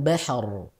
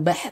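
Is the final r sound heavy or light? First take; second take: heavy; light. First: The final r is full, thick and clear. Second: The final r is thin and barely heard. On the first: The speaker calls it right. "dibacanya harusnya tebal" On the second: The speaker calls it wrong. "Bukan bah"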